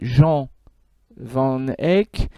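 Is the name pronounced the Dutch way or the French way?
French. The name is pronounced the French way. The speaker calls it wrong. "qu'on appelle aussi parfois en français"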